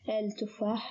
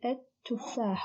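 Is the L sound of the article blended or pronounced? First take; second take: pronounced; blended. First: A clear l sound comes before the t. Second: The l merges into a doubled t sound. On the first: The speaker calls it wrong. "We don't say al-tuffah" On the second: The speaker calls it right. "We say at-tuffah. We assimilate the lam and double the ta"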